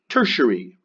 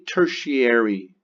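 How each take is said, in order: First: The 'a' in the ending is reduced or dropped. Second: The 'a' in the ending gets a full vowel. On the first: The speaker calls it right. "it's tertiary" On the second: The speaker calls it wrong. "I know there's an A in there, but we don't say tertiary"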